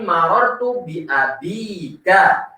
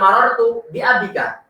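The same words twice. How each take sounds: First: The vowel after the b is long. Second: The vowel after the b is short. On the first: The speaker calls it right. "Ada huruf ya yang diletakkan setelah huruf ba" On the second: The speaker calls it wrong. "bukan marartu bi abika"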